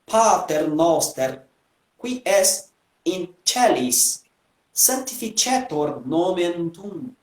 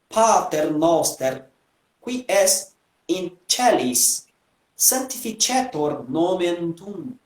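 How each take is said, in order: First: It uses the ecclesiastical Italianate Latin pronunciation. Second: The same.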